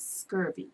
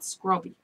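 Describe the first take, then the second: First: The middle consonant is a V sound. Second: The middle consonant is a B sound. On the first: This is the standard name. "the correct name is scurvy" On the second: This is the local Bermudian way of saying it. "Bermudians pronounce it scrubby"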